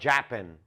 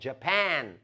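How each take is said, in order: First: The stress is on the first syllable. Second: The stress is on the second syllable. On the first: The speaker calls it wrong. "Todo mundo tem mania de falar Japan. Não é" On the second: The speaker calls it right. "é Japan, Japan, Pan, tá? É a sílaba tônica"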